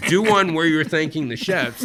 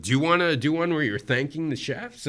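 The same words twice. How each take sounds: First: Louder, higher repeat as an order; insistent producer. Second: Said in the usual way. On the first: Retold or imitated. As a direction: press the request as a firm command. Producers insist after his refusal.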